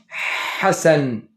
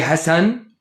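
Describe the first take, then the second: First: It starts with the special Arabic ḥ sound. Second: It starts with an ordinary English h sound. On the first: The speaker calls it right. "we're going to say Hassan" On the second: The speaker calls it wrong. "we don't say Hassan"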